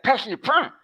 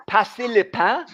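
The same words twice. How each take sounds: First: Higher, exaggerated Quebecois French imitation; Quebecois French accent. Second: "passer le pain" sounded out clearly in standard French; standard French pronunciation. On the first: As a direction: parody the Quebecois twang on the French. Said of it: "And you're like". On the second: Retold or imitated. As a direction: say "passer le pain" with every syllable distinct, Parisian style. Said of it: "I'm like, "Are you saying".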